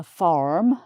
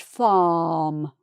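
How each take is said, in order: First: "farm" in an American accent with the R sounded; put-on American "farm" with rhotic R. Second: "farm" as a long open "faahm", R silent; drawn-out open vowel in British "farm"; British English. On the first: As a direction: demonstrate American "farm", strong R before the M. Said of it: "an American might say". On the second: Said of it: "but it's just in British English". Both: Shown as a demonstration.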